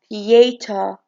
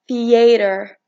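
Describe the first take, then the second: First: It is said with a British accent. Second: It is said with an American accent. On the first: "in British it's" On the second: "in American"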